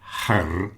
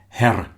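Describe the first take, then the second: First: The final R sound is not heard. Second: The final R sound is clearly pronounced. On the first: The speaker calls it right. "you probably won't hear the R on the end" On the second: The speaker calls it wrong. "Not her"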